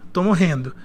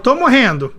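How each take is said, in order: First: It is said very quietly, fading down. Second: It is said at a louder, normal volume.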